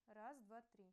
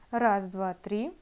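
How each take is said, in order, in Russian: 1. Голос записан очень тихо. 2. Голос громче, но фоновый шум хорошо слышен. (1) "при использовании петлички сигнал получается совсем слабым" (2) "усиленной записи с петлички. Тут этот фоновый шум гораздо заметнее"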